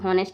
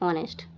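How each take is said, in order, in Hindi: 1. 'honest' शब्द h ध्वनि से शुरू होता है। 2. 'honest' शब्द स्वर ध्वनि से शुरू होता है। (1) "इसको हॉनेस्ट नहीं पढ़ेंगे बच्चों" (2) "एच साइलेंट होता है"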